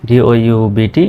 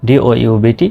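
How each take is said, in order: No difference in how they are said.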